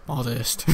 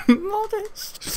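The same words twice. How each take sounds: First: Said in the usual way. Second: Repeats the word through a high laugh; giggling repeat. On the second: Shown as a demonstration. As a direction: laugh it out, pitched way up.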